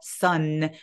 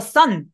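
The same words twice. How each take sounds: First: The ending is drawn out and lingering. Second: The ending is cut off abruptly. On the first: The speaker calls it right. "약간 끈적거리게 약간 소리를 어, 살려주시면 됩니다" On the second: The speaker calls it wrong. "너무 딱 끊지 말고"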